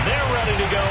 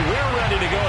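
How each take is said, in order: First: They're pushed up a little, then ready to go; stress on THEY'RE. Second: We're leaned on in answer to They're; stress on WE'RE. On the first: Announcer hyping the Jets crowd, stress on They're. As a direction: lean on They're to set up the echo. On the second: Announcer joining the crowd's hype, stress on We're. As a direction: hit We're to finish the echo. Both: Real, not acted.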